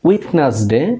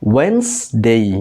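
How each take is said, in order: First: The first vowel sounds like 'ee'. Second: The first vowel sounds like 'e' in 'bed'. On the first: The speaker calls it wrong. "আমরা সাধারণত করি উইডনেসডে, but এটা উইডনেসডে না" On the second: The speaker calls it right. "এটা হবে ওয়েডনেসডে"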